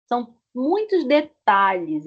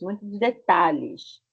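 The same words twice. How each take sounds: First: Said in the usual way. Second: Muitos detalhes said again slowly; careful classroom repetition; slow repeat. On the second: Shown as a demonstration. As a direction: repeat it slowly so they get it. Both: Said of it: "A lot of details".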